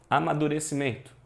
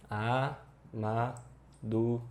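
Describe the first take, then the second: First: Said in the usual way. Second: Slow, each syllable of "Amadurecimento" set apart by a pause; A, ma, du, re, ci, men, to, one at a time. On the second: Shown as a demonstration. Teacher splitting the word for students, syllable by syllable. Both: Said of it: "separa aqui por sílaba certinha".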